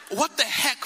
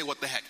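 First: Said in the usual way. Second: "What the heck." muttered low and soft; quiet aside. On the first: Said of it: "I said". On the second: Shown as a demonstration. Preacher coyly hints at the word he really said, low and soft. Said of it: "I didn't say".

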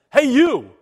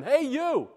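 First: Loud brash New Jersey "Hey, you!"; in-your-face New Jersey holler; New Jersey callout. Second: Said in the usual way. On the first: Pretend. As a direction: yell it like a New Jersey street guy. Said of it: "This is, this is pure New Jersey here". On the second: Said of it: "puts it in no uncertain terms".

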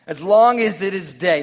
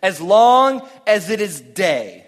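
First: Loud, stress on long, lifting at the end; echoed emphatic line; repeated for emphasis. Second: Loud and slow, every word leaned on; booming scripture line; emphatic reading. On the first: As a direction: say it back, hitting long. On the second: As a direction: preach it out slowly, full voice. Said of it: "he says". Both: Shown as a demonstration.

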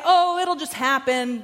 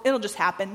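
First: Mock dismissive. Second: Said in the usual way. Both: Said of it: "We're not just gonna say".

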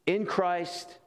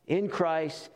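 No difference in how they are said.

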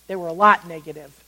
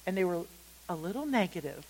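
First: "lot" punched louder in a low voice; firm, weighty emphasis on "lot"; stress on LOT. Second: Understated. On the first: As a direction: correct it by hitting "lot" hard. Corrects "little" to "lot. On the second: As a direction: play it down quietly, almost as an aside. Understated setup before correcting himself. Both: Shown as a demonstration.

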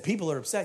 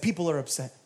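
First: "upset" rising as a question; questioning echo. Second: Said in the usual way. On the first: Retold or imitated. Preacher querying a visitor's complaint, questioning rise on "upset". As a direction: lift the end of "upset" to query it.

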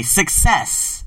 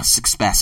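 First: "success" slow and deliberate, suk-SESS; corrected success. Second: "success" slipped as suck-SPESS, with a stray p; mispronounced success. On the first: Host fixing a slip, "success" said slowly as suk-SESS. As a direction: enunciate "success" slowly, without the stray p. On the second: Host tripping over the word, "success" as suck-SPESS. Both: Real, not acted. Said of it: "okay, success".

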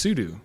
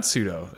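First: "sudo" said SOO-doo, ending in oo; second syllable of "sudo" rhymes with do. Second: "sudo" said SOO-doh, ending in an oh; second syllable of "sudo" rhymes with go. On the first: Host correcting the common way, SOO-doo for "sudo". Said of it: "it's sudo". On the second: Host rejecting the common way, SOO-doh for "sudo". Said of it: "but it's not sudo". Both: Shown as a demonstration.

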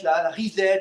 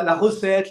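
First: "reset" said the English way, REE-set; English "reset" set against "recette"; English word reset. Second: "recette" said the French way, ruh-SET; French "recette", the everyday word. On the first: Economist jokes about the word mix-up, saying "reset" in English. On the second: Economist jokes about the word mix-up, saying "recette" plainly. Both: Shown as a demonstration. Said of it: "on peut confondre avec la".

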